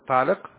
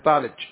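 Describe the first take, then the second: First: The final consonant is a deep q sound. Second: The final consonant is a ch sound. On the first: "بالقاف" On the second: "في الكويت يقول أنت طالج"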